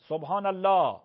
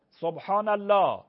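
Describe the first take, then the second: No difference in how they are said.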